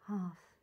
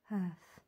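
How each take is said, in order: First: Hearth with an open "ah" vowel, like "harth"; Hearth said with a long AH; pronunciation variant. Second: Hearth with an "ur" vowel, like "hurth"; Hearth said with a long ER; pronunciation variant. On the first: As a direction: say Hearth as "hahf", rhyming with art. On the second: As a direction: say Hearth to rhyme with earth. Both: Shown as a demonstration. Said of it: "However you want to pronounce it".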